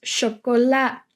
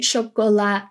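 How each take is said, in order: First: "chocola" ending on an open "la", no "de"; casual spoken Dutch "chocola"; ending dropped. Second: "chocolade" with the final "de" sounded separately; careful full-form "chocolade", ending -de audible; full ending pronounced. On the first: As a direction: drop the last syllable, just "chocola". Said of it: "just say chocola". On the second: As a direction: set off the last syllable of "chocolade". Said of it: "So we're not pronouncing chocolade". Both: Shown as a demonstration.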